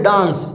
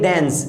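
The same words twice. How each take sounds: First: The word is said in a heavier, forced way. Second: The word is said in a lighter, easier way. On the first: The speaker calls it wrong. "कुछ बच्चे इसको बोलते हैं डांस" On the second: The speaker calls it right. "इसे बोलेंगे डांस"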